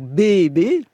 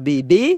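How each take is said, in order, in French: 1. L'accent est sur la première syllabe. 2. L'accent est sur la deuxième syllabe. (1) "j'essaye de le faire, sur la première syllabe" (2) "où on met l'accent sur le stress tonique sur la deuxième syllabe"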